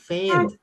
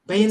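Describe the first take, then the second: First: The word begins with an f sound. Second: The word begins with a p sound. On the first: The speaker calls it right. "bukan bukan pain, faint" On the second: The speaker calls it wrong. "dia dengan logatnya jadi bilangnya pain gitu ya"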